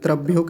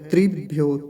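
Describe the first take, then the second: First: The first syllable has an 'a' vowel: tra. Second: The first syllable has an 'i' vowel: tri. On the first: The speaker calls it wrong. "त्रभ्यो कह देते हैं। तो ये त्रभ्यो नहीं है" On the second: The speaker calls it right. "त्रिभ्यो है"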